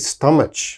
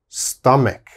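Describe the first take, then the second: First: The middle consonant is a ch sound. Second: The middle consonant is a k sound. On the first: The speaker calls it wrong. "There's a C H, so they say stomach. Oh, please don't say stomach" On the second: The speaker calls it right. "It is always stomach, stomach. Strong K sound here"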